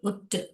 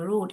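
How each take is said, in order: First: The vowel is a short clipped sound. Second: The vowel is a long oo sound. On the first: The speaker calls it wrong. "இதை வந்து இப்படி படிச்சோம்னா ஊ இல்ல, ருட்டுன்னு ஆயிடும்" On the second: The speaker calls it right. "ஊ பார்க்கலாமா?"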